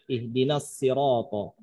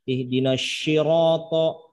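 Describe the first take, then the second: First: The consonant is pronounced as plain 's'. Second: The consonant is pronounced as 'sh'. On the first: The speaker calls it right. "bisa menggunakan dengan sin" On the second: The speaker calls it wrong. "jangan sampai ... dirubah jadi shin"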